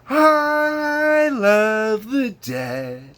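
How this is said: It is said in a bright, happy tone. "On the album, it's happy. Happy go lucky"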